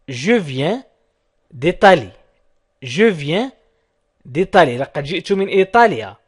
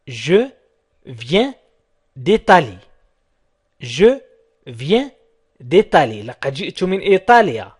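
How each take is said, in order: Both takes have the same delivery.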